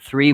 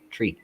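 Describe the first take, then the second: First: It is said with a standard th sound. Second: It is said the Irish way, like tree.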